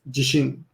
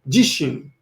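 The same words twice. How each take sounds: First: The first syllable is not stressed. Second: The first syllable is stressed. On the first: It means confidence. "number two and three are pronounced exactly the same" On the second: It means myself. "I guess you want to stress the first"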